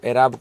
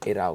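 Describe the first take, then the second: First: The word ends with a b sound. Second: The word ends with a v sound. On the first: "एराब कह दो" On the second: "या एराव कह दो, एक ही बात है"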